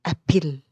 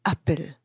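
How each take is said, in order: First: "أبل" stressed on its last syllable, a-PPLE; wrong second-syllable stress. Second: "أبل" stressed at the start, AP-ple; first-syllable stress. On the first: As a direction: misplace the weight onto the end of "أبل". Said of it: "ما ينفعش مثلًا أنطقها". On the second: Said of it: "الصح هو أبل". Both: Shown as a demonstration.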